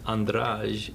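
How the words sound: It is said with a European Portuguese accent. "in Portugal"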